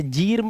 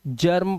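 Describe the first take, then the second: First: जीर्म with long "ee" before r; wrong "ee" vowel. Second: जर्म with a short "uh" before r; correct short "a". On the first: Teacher warning of a wrong reading, long-vowelled जीर्म. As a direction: say जीर्म like "jeerm". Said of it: "पढ़ लें गलत हो जाएगा". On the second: Teacher giving the correct reading, short-vowelled जर्म. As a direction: say जर्म like "jurm". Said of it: "जर्म पढ़ना है". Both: Shown as a demonstration.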